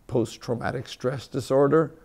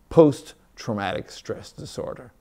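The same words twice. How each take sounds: First: The word post has no special emphasis. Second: The word post is strongly emphasized. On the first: Stress after a traumatic event. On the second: Stress from seeing media posts.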